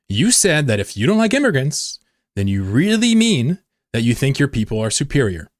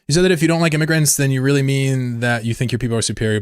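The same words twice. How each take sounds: First: It is read slowly. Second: It is read at normal speed.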